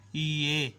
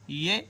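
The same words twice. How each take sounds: First: Teacher's long-vowel "یہ". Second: Teacher's short-vowel "یہ". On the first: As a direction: hold the vowel of "یہ" out in full. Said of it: "اس میں ہم پڑھیں گے پورا". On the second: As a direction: say "یہ" with a brief, half-length vowel. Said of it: "آدھا یہ پڑھیں گے". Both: Shown as a demonstration.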